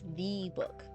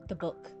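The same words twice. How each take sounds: First: The stress falls on the word the. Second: The stress falls on the word book.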